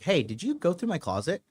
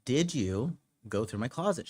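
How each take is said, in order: First: Lighter, higher opening question; casual probing question. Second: Pointed repeat question. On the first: Man texting his girlfriend about his closet, casual probing. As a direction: ask it breezily, fishing for an answer. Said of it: "And I texted her, I was like". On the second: Man asking his girlfriend a second time, pointed and deliberate. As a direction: press the question, drawing out "did you". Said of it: "gonna ask you again". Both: Retold or imitated.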